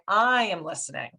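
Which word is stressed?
I. The stress is on "I".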